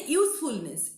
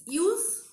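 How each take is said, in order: First: Said in the usual way. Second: "Usefulness" as use... ful... ness, starting high; syllable by syllable. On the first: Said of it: "we are pronouncing at a stretch". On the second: Shown as a demonstration. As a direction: pause after each part of "Usefulness". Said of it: "A word of three syllables".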